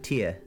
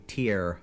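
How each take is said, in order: First: The final R is dropped, Cockney style. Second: The final R is clearly pronounced. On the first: "In a Cockney accent, you would be like tear" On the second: "you're gonna have that rhotic R on the end of it"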